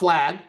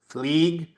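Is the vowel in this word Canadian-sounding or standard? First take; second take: standard; Canadian. First: The vowel is said in the standard way. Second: The vowel is said the Canadian way.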